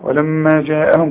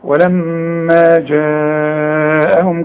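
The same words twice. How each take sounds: First: The vowel in the second word is kept short. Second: The vowel in the second word is held long. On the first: The speaker calls it wrong. "مش تقول لي ولما جاءهم كده" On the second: The speaker calls it right. "لا لا لا لا لا لا"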